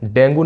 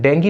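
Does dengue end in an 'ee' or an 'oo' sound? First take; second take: oo; ee. First: The word ends in an 'oo' sound. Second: The word ends in an 'ee' sound. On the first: The speaker calls it wrong. "डेंगू नहीं होता है" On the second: The speaker calls it right. "डेंगी होता है"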